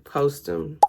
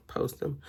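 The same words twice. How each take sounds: First: Said in the usual way. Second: Much softer, to herself; softly muttered echo; quiet aside. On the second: Real, not acted. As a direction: drop the repeat to a murmur.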